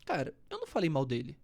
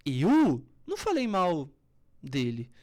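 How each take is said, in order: First: Said in the usual way. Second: Loud, slow, heavy denial; angry denial. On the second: Shown as a demonstration. Coach showing the same words said angrily. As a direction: bite out each word in anger. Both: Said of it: "São as mesmas palavras".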